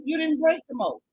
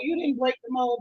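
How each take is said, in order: First: "break" hit higher, line ending in a fall; "break" stressed with a scornful fall. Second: "you" leaned on, the rest falling away; "you" stressed in a mocking correction. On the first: Acted. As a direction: land hard on the word "break". Repeating the correction. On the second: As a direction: push the word "you" as the correction. Correcting a quoted claim.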